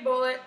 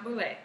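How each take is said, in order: First: Bullet, like the ammunition, ending in "it"; owner's pronunciation of Bullet. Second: Bouley ending in a French-style "lay"; mispronounced Bouley. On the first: Citing Tom on his own name, Bullet with "it". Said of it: "He pronounced his name Bullet". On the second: Showing how the name isn't said, mispronounced Bouley. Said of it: "so it's not Bouley". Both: Shown as a demonstration.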